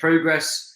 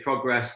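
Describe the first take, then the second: First: It is said with a British pronunciation. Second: It is said with an American pronunciation. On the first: "us Brits say progress" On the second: "My American friends, of course, say progress"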